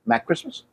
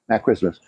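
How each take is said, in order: First: Rising, tentative guess at the name; unsure question. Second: Said in the usual way. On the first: Real, not acted. Recalling the waiter's name, questioning rise. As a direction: asks the name, not sure of it.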